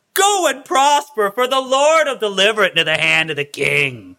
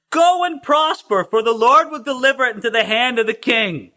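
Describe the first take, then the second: First: Sarcastic blessing with a high, stretched "Go and prosper"; mock the king with an overblown prophecy, falling away. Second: Mocking proclamation. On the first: Prophet answering King Ahab, openly mocking. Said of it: "he was mocking him". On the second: Prophet answering the king, grand mock blessing. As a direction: proclaim it grandly, starting high then coming down. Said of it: "everybody knew that he was mocking him".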